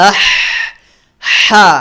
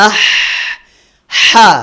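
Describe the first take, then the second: Both takes have the same delivery.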